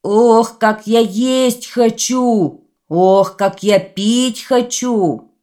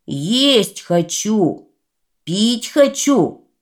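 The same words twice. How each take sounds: First: Slow, loud, drawn-out bellow. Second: Slow, drawn-out demanding shout. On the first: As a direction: roar it like a greedy giant. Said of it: "Идёт по улице и орёт". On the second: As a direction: bellow it like a hungry giant. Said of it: "давай кричать". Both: Acted.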